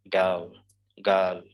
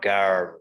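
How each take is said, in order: First: Put-on "girl" with a silent R, just a schwa; British girl. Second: Put-on "girl" with a pronounced R, the wrong way here; American girl. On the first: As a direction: say "girl" with no R at all. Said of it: "we pronounce it as girl". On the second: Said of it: "It's not girl". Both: Shown as a demonstration.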